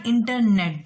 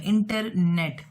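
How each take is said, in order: First: Said in the usual way. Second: internet said very slowly, each part drawn out; slow spelled-out word. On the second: Shown as a demonstration. Teacher slowly repeating internet for students learning compound words. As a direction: stretch internet slowly so students hear its two halves. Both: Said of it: "internet दो words को मिला हुआ है".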